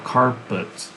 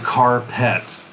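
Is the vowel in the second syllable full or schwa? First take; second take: schwa; full. First: The second syllable has a weak schwa vowel. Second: The second syllable has a full, clear vowel. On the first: The speaker calls it right. "it's schwa" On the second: The speaker calls it wrong. "But we don't really say carpet"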